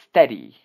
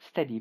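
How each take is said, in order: First: It is said sharply, as a firm command. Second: It is said calmly, as a gentle instruction. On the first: The listener is being ordered to obey. "But your father will tell you" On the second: The listener is being advised what to do. "Just like I tell you"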